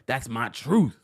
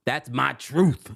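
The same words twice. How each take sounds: First: Said in the usual way. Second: Slow, drawn-out quote with rising end; quoting Danielle. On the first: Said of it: "Look, look, look, look". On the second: Retold or imitated. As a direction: stretch it out, let the end rise. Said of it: "She's like".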